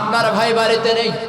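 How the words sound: It is said in a harsh, curt voice. It sends the man away. The speaker calls it right. "গরম গরম কথা, কোনো রসকস নাই"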